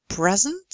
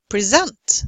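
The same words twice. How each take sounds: First: The noun present, weight on PRES; first-syllable stress. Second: The verb present, weight on SENT; second-syllable stress. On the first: Teacher contrasts noun with verb, present stressed on PRES. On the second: Teacher contrasts verb with noun, present stressed on SENT. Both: Shown as a demonstration. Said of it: "signal this difference by way of stress".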